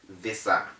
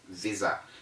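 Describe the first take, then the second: First: The middle consonant is a hissing S sound. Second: The middle consonant is a buzzing Z sound. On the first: The speaker calls it wrong. "it is wrong to say visa" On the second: The speaker calls it right. "The correct pronunciation is visa"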